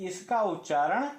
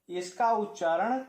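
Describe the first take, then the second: The two takes are said the same way.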